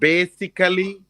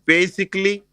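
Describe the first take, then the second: First: The ending is said as a full 'ally'. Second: The ending is said as a reduced 'ly'. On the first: The speaker calls it wrong. "So it's not basically" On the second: The speaker calls it right. "we don't say the Ali. It's like basically"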